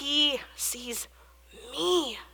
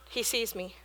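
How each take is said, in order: First: The stress falls on 'me'. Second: The stress is not on 'me'.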